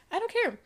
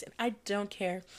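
First: Jumps much higher on the repeat, care falling; high, emphatic I don't care. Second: Low and soft, shrugging it off; muttered I don't care; quiet dismissal. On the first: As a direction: fling it out high and final. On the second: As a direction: drop it under your breath. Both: Real, not acted.

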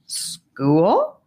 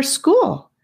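First: "School?" with a surprised questioning rise at the end; puzzled question. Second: Said in the usual way. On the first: Acted. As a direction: echo "School?" back, puzzled and rising. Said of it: "asked Sephora with raised eyebrows".

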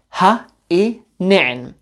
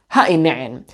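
First: Ha i ne'en said slowly, each syllable drawn out; slow careful demo. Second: Said in the usual way. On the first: Shown as a demonstration. Teacher models Ha i ne'en slowly for students. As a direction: spell out Ha i ne'en slowly for learners. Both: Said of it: "learn what is in front of you".

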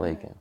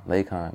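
First: "Lakin" said LAY-kin, with a short second syllable; rejected pronunciation. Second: "Lakon" said LAY-kahn, with an "ah" in the second syllable; corrected pronunciation. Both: Shown as a demonstration. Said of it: "not Lakin".

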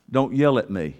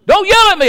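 First: Said in the usual way. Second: Retelling the wife's line, now much higher and louder; mock yell. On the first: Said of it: "My wife says". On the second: Husband replaying his wife's complaint in a loud mock yell. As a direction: belt it out as if mid-quarrel. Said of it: "So my wife says".

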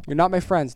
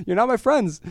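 First: Said in the usual way. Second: Higher, louder mock indignation; playfully acting hurt by coffee critics; mock offended.

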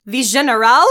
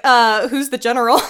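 First: Loud, questioning echo in fake French; mock French accent. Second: Said in the usual way. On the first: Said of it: "baddest French accent this entire time". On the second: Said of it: "And then he's like".

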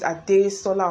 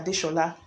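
First: "Adesola" with a plain s, ah-day-SAW-la; s-sound version. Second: "Adeshola" with sh, ah-day-SHAW-la; sh-sound version. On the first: Giving an example name, "Adesola" with plain s. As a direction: say "Adesola" with s, not sh. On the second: Giving the other form, "Adeshola" with sh. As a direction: say "Adeshola" with a soft sh. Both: Shown as a demonstration. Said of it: "I can't pronounce all these Yoruba names".

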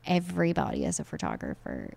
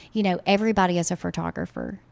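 First: Dry, softer sarcastic repeat. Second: Said in the usual way. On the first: Acted. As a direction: say it with an eye-roll. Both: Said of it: "I'm being extremely sarcastic".

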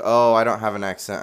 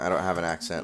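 First: Mocking. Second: Said in the usual way. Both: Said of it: "A lot of people think".

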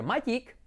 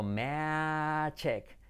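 First: "magic" as MAH-yeek; pronunciación errónea. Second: "magic" very slow, MEHHH-jek; pronunciación correcta. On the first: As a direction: say "magic" with open a, y sound and ee. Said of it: "no va a ser magic". ("magic" mal dicho, como «mayik») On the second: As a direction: stretch "magic" out, hard j, short e. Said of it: "sino magic". ("magic" muy lento, «meee-dchek») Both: Shown as a demonstration.

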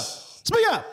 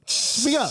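First: Very high mock squeal; cheering the guest on, squeaky; high squeaky speak up. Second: High teasing prod; mock high speak up. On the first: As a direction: squeal it up at him. Much higher squeak. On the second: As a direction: egg him on in a high squeak. Teasing, higher.

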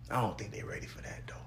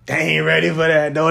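First: Unvoiced whisper, much softer; breathy whispered joke aside. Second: Said in the usual way. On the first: Real, not acted. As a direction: whisper it like a secret to the listener. Aside, they not ready.

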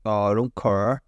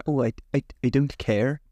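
First: Broad Northern Irish, CARE becoming car; low-pitched Northern Irish with an open-vowelled CARE; classic Northern Irish accent. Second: CARE with an eh vowel, rhyming with air; preferred softer CARE. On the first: Showing the disliked accent, classic Northern Irish. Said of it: "the classic Northern Irish accent". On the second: Showing the preferred version, CARE with clear eh. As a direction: say CARE in the neater standard way. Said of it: "I prefer". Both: Shown as a demonstration.

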